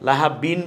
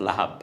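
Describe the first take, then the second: First: The word ends with an added -in sound. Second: The word stops cleanly on the final b. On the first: The speaker calls it wrong. "লাহাবিন বলছি না" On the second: The speaker calls it right. "বলছি লাহাব"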